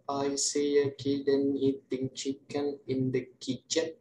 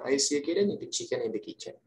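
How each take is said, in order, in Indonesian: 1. Kalimat itu diucapkan cepat. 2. Kalimat itu diucapkan sangat cepat. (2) "And the fastest one"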